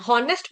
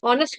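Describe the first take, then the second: First: The word begins with an audible h sound. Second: The word begins directly with a vowel sound. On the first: The speaker calls it wrong. "हॉनेस्ट पढ़ते हैं?" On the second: The speaker calls it right. "साइलेंट हो जाएगा यहाँ पर भी, जैसे ऑनेस्ट में होता है"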